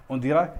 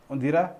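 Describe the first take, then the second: The two takes are said the same way.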